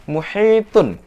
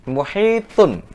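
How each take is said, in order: Both takes have the same delivery.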